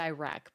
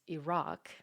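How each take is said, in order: First: It is said with an American pronunciation. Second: It is said with a non-American pronunciation. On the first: This is how the speaker habitually says it. The speaker calls it wrong. "I say Iraq" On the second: This is how it should be said. The speaker calls it right. "but it's Iraq"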